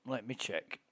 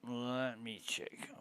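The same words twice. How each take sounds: First: Much softer, muttering to himself; muttered under breath. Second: Slow, breathy whisper to himself. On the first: Checking the game, muttering to himself quietly. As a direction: drop the voice way down. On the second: Checking the game, whispering to himself slowly. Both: Real, not acted. Repeating phrase, getting quieter.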